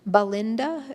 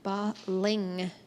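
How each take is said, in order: First: The middle is a plain 'nd' sound. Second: The middle is an 'ng' followed by 't'. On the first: The speaker calls it wrong. "it kind of sounds like Belinda as you're going fast" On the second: The speaker calls it right. "it's actually Balingta"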